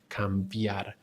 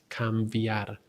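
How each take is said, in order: No difference in how they are said.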